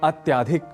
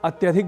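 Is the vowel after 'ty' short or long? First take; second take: long; short. First: The vowel after the ty sound is long. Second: The vowel after the ty sound is short. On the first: The speaker calls it wrong. "हम कहते हैं अत्याधिक" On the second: The speaker calls it right. "जैसे अत्यधिक बोलना हो"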